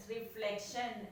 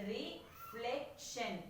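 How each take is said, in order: First: Said in the usual way. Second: "Reflection" slowly as re... flec... shun; split into syllables. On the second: Shown as a demonstration. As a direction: give each syllable of "Reflection" its own beat. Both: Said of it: "vowel sound we can hear".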